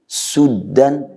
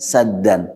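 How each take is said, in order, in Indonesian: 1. Vokal pertama adalah bunyi 'u' bulat. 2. Vokal pertama adalah bunyi 'a' terbuka. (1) "harokat dhammah u memberi makna yang lebih berat" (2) "harokat fathah a"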